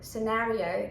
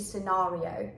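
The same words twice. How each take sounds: First: It is said in an American accent. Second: It is said in a British accent. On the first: The speaker calls it wrong. "when I used to speak more American-like, and I used to say scenario" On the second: The speaker calls it right. "the British English. So it should be scenario"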